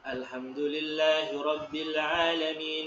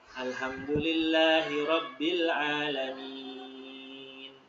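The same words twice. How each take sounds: First: It runs on into the next words without stopping. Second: It stops after a long final vowel. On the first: "saya baca surah Al-Fatihah diwasolkan... Jadi lanjut tuh" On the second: "Kalau wakof itu berhenti... kalau wakof dia empat tuh mad aridnya"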